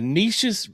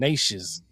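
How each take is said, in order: First: The first vowel is not a long A. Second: The first vowel is a long A. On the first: The speaker calls it wrong. "I'm probably saying it wrong. I am" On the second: The speaker calls it right. "pronounced with the long A sound, rhyming with neighbors"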